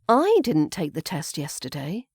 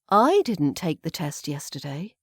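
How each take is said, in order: First: The word "I" carries the main stress. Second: The word "I" carries the main stress.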